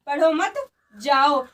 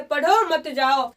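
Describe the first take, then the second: First: "पढ़ो मत" together, pause, lower "जाओ"; pause after मत. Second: Slow "पढ़ो", then "मत जाओ" as one phrase; pause after पढ़ो. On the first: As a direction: join "पढ़ो मत", then a separate "जाओ". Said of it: "पढ़ाई मत करो और जाओ". ("मत" के बाद रुककर "जाओ") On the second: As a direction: break after "पढ़ो", keep "मत जाओ" together. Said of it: "आपको पढ़ना है और जाना नहीं है". ("पढ़ो" के बाद ठहराव) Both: Shown as a demonstration.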